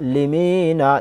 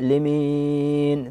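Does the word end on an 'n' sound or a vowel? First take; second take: vowel; n. First: The word ends with a short final vowel. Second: The word ends on n after a drawn-out vowel. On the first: The reading continues without stopping. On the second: The reader stops at this word.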